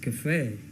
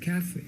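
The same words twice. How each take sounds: First: The stress is on the second syllable. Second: The stress is on the first syllable. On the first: "where the stress is on the second word F E, second syllable" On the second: "or you could say cafe"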